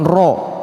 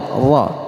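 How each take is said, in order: First: The r is followed by a heavy o-like vowel. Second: The r is followed by a light a vowel. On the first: The speaker calls it wrong. "bukan ro" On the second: The speaker calls it right. "lihat ra"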